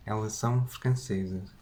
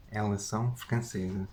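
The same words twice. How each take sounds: The two takes are said the same way.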